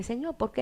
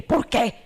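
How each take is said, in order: First: Soft, humble question to God; meek, pleading why; humble asking. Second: Louder, demanding why; indignant challenge; accusing why. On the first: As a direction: ask it gently, as a plea. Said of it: "una cosa es decirle". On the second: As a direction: throw the question back at God. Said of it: "Es otra cosa". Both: Shown as a demonstration.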